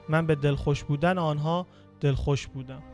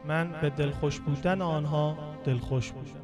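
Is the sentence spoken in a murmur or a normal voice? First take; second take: normal; murmur. First: It is spoken in a normal voice. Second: It is spoken in a soft murmur.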